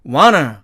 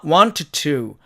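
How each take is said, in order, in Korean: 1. t 소리는 빠지고, 모음은 약해집니다. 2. 두 t 소리가 모두 분명하게 발음됩니다. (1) "t가 또 사라지고 ... 약해져서 어로 바뀌니까 결국" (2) "사전식 발음으로는 당연히 want와 to니까"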